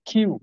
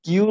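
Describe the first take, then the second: First: "কিউ" begun with a breathy kh; aspirated Q. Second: Said in the usual way. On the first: Shown as a demonstration. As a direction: let air burst on the k of "কিউ". ("কিউ" মহাপ্রাণ খ-এর মতো করে) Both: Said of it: "কিউ উচ্চারণ হবে".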